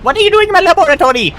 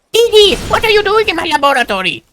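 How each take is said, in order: First: Put-on very high, fast, whiny boy genius; Dexter voice. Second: Put-on very high, whiny boy genius; Dexter voice. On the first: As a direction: whine it fast like an outraged kid scientist. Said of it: "I kinda hit the D D". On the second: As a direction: whine it like an outraged kid scientist. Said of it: "Doctor Doofenshmirtz sounds like".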